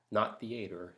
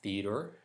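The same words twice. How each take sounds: First: "theater" said as thee-ay-ter; rejected pronunciation. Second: "Theater" as thee-uh-ter, rising; own pronunciation. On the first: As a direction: stress the other "theater" to reject it. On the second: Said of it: "theater for me". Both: Shown as a demonstration.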